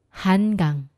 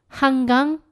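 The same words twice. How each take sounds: First: The first syllable ends in a clear n sound. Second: The first syllable ends in an ng sound. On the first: The speaker calls it right. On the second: The speaker calls it wrong.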